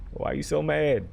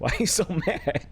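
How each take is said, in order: First: Higher-pitched exasperated plea; playful complaint, laugh held back; mock protest. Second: High, cracking up mid-question; giggly mock complaint; laughing protest. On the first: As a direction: plead with an angry grandma, jokingly. Repeats the protest without the laugh. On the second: Real, not acted. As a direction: break into laughter while asking. Jokes to aggressive grandma, breaking up.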